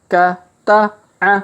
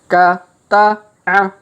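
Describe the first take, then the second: The two takes are said the same way.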